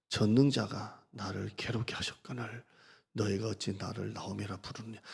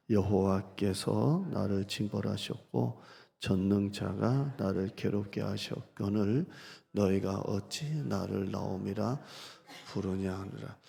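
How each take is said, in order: First: Said in the usual way. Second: Slow, held reading of the lament; a slow, clinging plea to God. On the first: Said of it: "제가 읽어드린 투를". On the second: Shown as a demonstration. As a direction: dwell on each phrase, never letting go of God. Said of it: "제가 읽어드린 투를 여러분이 느낌이 오세요?".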